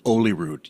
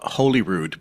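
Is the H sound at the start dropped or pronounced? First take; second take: dropped; pronounced. First: The word begins without any H sound. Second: The word begins with a clear H sound.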